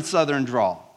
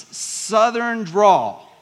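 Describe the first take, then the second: First: Said in the usual way. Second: Slow, stretched Southern drawl on the words. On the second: Shown as a demonstration. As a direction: drag out the words like a Georgia preacher. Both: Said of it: "in your most obnoxious southern drawl".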